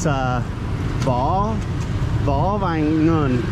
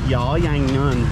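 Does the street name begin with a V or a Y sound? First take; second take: V; Y. First: The name begins with a V sound. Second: The name begins with a Y sound. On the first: "So it's Vo Vang Nun" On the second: "Or maybe they would pronounce it Yo Yang Nun"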